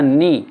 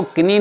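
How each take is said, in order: First: नी starting straight on N; silent K in knee. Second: किनी starting on a sounded K; K pronounced in knee. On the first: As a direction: say नी, dropping the K. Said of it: "इसको बोला जाता है नी". (नी, बिना क के) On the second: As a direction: say किनी, voicing K before N. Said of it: "इसको किनी नहीं बोलते". (किनी, क बोलकर) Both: Shown as a demonstration.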